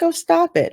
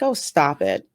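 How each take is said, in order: First: "Oh, stop it" pitched higher, breezy and light; mock-breezy wife brushing off her husband; dismissive. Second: Lightly imitating a dismissive wife; unbothered. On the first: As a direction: wave it away like it's nothing. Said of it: "you'd think she'd be freaking out, but no". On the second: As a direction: brush off the husband's fuss, cool as can be. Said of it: "as cool as the other side of the pillow".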